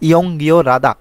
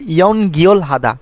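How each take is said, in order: First: The l links into the next syllable as r. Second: The l stays separate before a clear h sound. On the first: The speaker calls it right. "এটার উচ্চারণ হবে সঠিক" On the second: The speaker calls it wrong. "আমরা অনেকে পড়ি কি"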